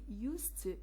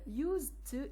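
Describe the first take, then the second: First: The consonant before 'to' is a voiceless s. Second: The consonant before 'to' is a voiced z.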